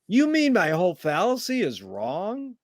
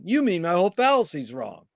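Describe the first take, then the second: First: It is said with the tune of a question. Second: It is said with the tune of a statement. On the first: "That's a question" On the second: "Woody had him say it as a statement"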